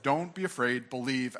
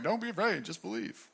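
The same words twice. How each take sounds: First: Said in the usual way. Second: Tossed off lightly, trailing away softer; casual, haphazard. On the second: Shown as a demonstration. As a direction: say it offhand, like it barely matters. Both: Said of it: "I don't think he says it casually or haphazardly".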